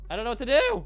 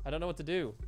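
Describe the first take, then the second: First: Loud panicked cry. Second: Said in the usual way. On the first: Real, not acted. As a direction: blurt it out in panic. Repeats louder in panic.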